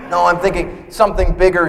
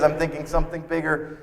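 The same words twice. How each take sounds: First: Wife insisting. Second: Said in the usual way. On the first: Retold or imitated. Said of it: "she says".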